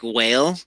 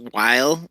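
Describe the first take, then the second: First: "whale" with a long ay sound, like the sea animal; while said as whale. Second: Said in the usual way. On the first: Retold or imitated. Coworker mispronouncing while as "whale". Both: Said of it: "someone at work who says".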